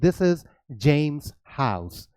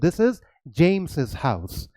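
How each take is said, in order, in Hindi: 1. यह नाम बिना अतिरिक्त सिलेबल के बोला जाता है। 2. इस नाम में एक अतिरिक्त 'iz' सिलेबल जुड़ता है। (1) "इसकी प्रोनाउंसिएशन हो जाएगी सिर्फ जेम्स" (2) "इसकी प्रोनाउंसिएशन हो जाएगी जेम्स's"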